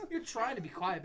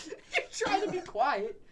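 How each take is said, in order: First: Said in the usual way. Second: Higher, louder, slower through laughter; cracking up mid-sentence; laughing. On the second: Real, not acted. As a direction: barely get the words out for laughing. Laughing while saying it.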